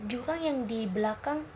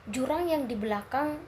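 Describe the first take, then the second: No difference in how they are said.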